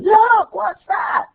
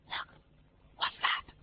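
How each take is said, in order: First: The phrase is shouted loudly. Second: The phrase is whispered softly.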